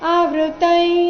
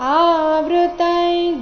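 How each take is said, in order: First: The first vowel is short and rushed. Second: The first vowel is long and unhurried. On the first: The speaker calls it wrong. "ಆವೃತೈ ಬೇಡ" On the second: The speaker calls it right. "ಆ ದೀರ್ಘ ಇದೆ, ಗಡಿಬಿಡಿ ಮಾಡಬಾರ್ದು ... ಈ ರೀತಿ ಬರಬೇಕು"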